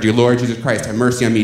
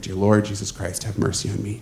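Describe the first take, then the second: First: It is said at a louder volume. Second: It is said at a quieter volume.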